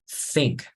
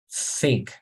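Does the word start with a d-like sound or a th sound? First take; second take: th sound; th sound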